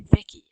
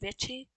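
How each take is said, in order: First: The middle consonant is a k sound. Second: The middle consonant is an sh sound. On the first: "Some people say Vicky" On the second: "I say Vichy"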